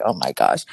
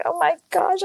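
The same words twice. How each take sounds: First: Low, sinking groan of disbelief; deflated dismay. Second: High, panicked squeak of alarm; flustered gasp. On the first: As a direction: let it drop deep, stunned. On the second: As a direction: yelp it out high, caught off guard. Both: Retold or imitated. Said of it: "And I was like".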